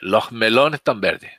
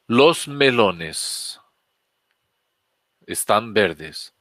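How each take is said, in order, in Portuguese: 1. É dito com sotaque do espanhol andaluz. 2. É dito com sotaque do espanhol padrão.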